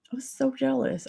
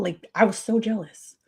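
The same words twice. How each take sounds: First: A higher, hushed echo of "I was so jealous"; quieter repeat. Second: Said in the usual way. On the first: Real, not acted. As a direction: say "I was so jealous" again, softer and higher, dropping away.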